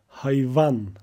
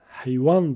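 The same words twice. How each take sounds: First: The word has its Turkish pronunciation. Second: The word has its Kurdish pronunciation. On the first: "Türkçe'de hayvan olarak telaffuz ediliyor" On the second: "Biz Kürtçe'de hayvan diye telaffuz ederken"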